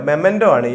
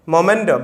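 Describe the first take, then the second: First: മെമെന്റോ said with an e sound, "me-mento"; correct spelling said. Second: മൊമെന്റോ said with an o sound, "mo-mento"; wrong spelling said. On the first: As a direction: correct it to മെമെന്റോ, "memento", first syllable me. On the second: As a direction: say മൊമെന്റോ as the common wrong form "momento". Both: Shown as a demonstration.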